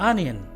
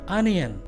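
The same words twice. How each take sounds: Both takes have the same delivery.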